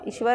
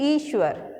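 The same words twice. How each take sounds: First: The first vowel is a short 'i'. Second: The first vowel is a long 'ee'. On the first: The speaker calls it wrong. "ईश्वर नहीं" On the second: The speaker calls it right. "बड़ी ई की मात्रा का प्रयोग यहाँ होगा"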